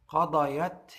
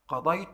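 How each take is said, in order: First: The y sound is followed by a short a. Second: The y sound carries no vowel after it. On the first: A woman who is absent did it. "الياء هنا مفتوحة" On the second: The speaker did it. "الياء هنا ساكنة"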